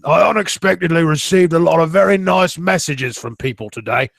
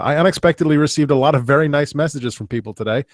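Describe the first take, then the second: First: It is read in an imitated character voice. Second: It is read in his own normal voice. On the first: The speaker calls it right. "I should be doing this in the voice" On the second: The speaker calls it wrong. "I'm not doing this in the voice"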